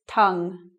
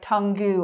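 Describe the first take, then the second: First: The word ends on a consonant, no extra vowel. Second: The word ends with an extra vowel sound. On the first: The speaker calls it right. "It's tongue" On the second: The speaker calls it wrong. "Tungu is not right"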